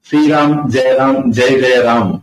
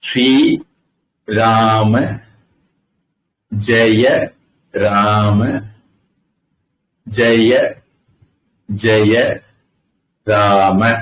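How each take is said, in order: First: The final vowels of the words are dropped. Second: Each word keeps its final vowel sound. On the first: The syllable count of the mantra is spoiled. The speaker calls it wrong. "அக்ஷரம் எண்ணிக்கை குழம்பிடும்" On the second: The mantra has its full thirteen syllables. The speaker calls it right. "அப்படி சொன்னாதான் அதுல பதிமூணு அக்ஷரம் வரும்"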